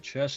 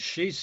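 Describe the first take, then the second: First: The name sounds like "chess". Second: The name sounds like "she's". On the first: "chess in American" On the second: "she's in Swiss"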